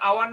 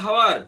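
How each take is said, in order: First: The word begins with a vowel sound. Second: The word begins with an h sound. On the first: The speaker calls it right. "Half an আওয়ার না হাওয়ার" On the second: The speaker calls it wrong. "না হাওয়ার"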